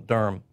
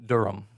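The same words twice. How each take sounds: First: The word is said with one syllable. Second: The word is said with two syllables. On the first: The speaker calls it right. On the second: The speaker calls it wrong.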